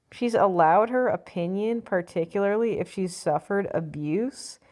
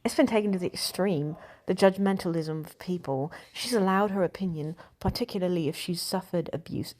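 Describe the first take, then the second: First: Said in the usual way. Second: Put-on British accent for a quote. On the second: Shown as a demonstration. Reading an actress's quote to The Times, British accent. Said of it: "let me do that in a British accent".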